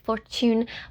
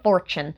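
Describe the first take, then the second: First: The word is said in a crisp, affected way. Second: The word is said with a Southern American accent. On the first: "that sounds like really obnoxious" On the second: "I'm gonna sound like really southern"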